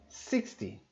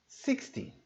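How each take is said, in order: No difference in how they are said.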